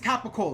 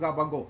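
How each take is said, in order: First: It is said with the full standard pronunciation. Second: It is said in a clipped regional dialect form. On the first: "I think it's capicola" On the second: "we call it gabagool"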